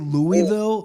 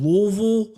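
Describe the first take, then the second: First: The city name is said the outsider way. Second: The city name is said the local way. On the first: The speaker calls it wrong. "Don't say Louisville. They get very upset" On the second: The speaker calls it right. "It's Louisville"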